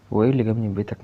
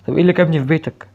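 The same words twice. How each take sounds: First: Said in the usual way. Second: Loud, high shouted question. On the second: Real, not acted. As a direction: yell it in disbelief. Same question shouted then repeated. (سؤال بصوت عالٍ)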